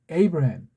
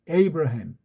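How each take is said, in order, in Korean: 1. 이름은 영어의 'ay' 소리로 시작해요. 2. 이름은 영어의 'ay' 소리로 시작해요.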